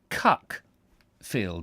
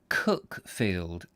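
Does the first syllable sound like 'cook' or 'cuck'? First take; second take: cuck; cook. First: The first vowel sounds like the one in 'cuck'. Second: The first vowel sounds like the one in 'cook'. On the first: This follows the spelling. "as it's spelt" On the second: This is how local people say it. "called locally"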